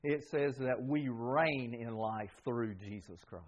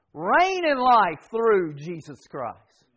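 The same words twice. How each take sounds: First: Said in the usual way. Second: Slow, with "Reign" hit hard and each word weighted; slow emphatic repeat. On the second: Shown as a demonstration. Preacher repeating the verse to his church, slow and emphatic. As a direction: drive the phrase home word by word.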